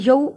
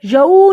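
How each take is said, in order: First: یو said short, not stretched; short vowel. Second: یو louder, with the glide stretched long; wrongly lengthened vowel. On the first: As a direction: cut the glide of یو short. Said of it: "میں نے لمبا نہیں کیا". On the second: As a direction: drag out the sound of یو. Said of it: "نہیں پڑھا میں نے". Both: Shown as a demonstration.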